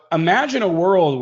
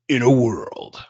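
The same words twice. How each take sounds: First: Said in the usual way. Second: Low, breathy movie-trailer announcer; deep movie voice. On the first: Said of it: "I sound like the movie Deep movie". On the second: Acted. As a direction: intone it like a trailer voice-over guy. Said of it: "the Deep movie voice guy".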